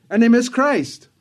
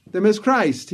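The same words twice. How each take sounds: First: "miss" hit higher and louder; emphatic repeat. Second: Said in the usual way. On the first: Real, not acted. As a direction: drive the word "miss" home, pitched up and loud.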